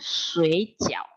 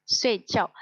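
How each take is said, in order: First: "sui" drawn out in a low dipping third tone. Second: Both syllables of "Sui jiao" falling sharply, kept short; fourth tone. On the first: Teacher warning students off the wrong tone, "sui" dipped in third tone. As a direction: mispronounce "sui jiao" with a dipping tone on sui. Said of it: "Kalau nyebutnya nada tiga". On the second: Teacher showing students the correct sleep word, "Sui jiao" in falling fourth tones. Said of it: "nada empat semua". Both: Shown as a demonstration.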